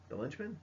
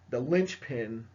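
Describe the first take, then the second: First: The linchpin? said softer, rising at the end; linchpin? asked softly, rising as if checking the word; unsure question. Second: Said in the usual way. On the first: Real, not acted. Teacher doubting her own term, soft rising question. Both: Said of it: "I think that's what they call it".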